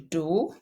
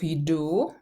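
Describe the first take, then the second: First: The word starts without a J sound. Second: The word starts with a J sound. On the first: This is the form used in fast speech. "we erase the initial J sound. We skip it" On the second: This is the standard form. "Instead of jdu"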